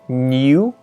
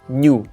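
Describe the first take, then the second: First: The soft n and y sound are separated. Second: The soft n and y sound are blended. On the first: The speaker calls it wrong. "don't say new" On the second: The speaker calls it right. "but just new, because you kind of blend them in"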